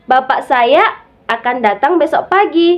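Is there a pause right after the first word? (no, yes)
no. The first two words run together without a pause. The speaker's father is the one who will come. "Bapak saya yang akan datang besok pagi"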